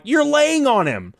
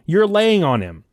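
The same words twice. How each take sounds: First: High, slow, stressing "You're laying on him" with each word drawn out; hammed-up retelling of calling her out on lying on "him"; emphatic retort. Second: Said in the usual way. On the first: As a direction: lean on "You're" and drag the line out in disbelief. Retold confrontation with girlfriend.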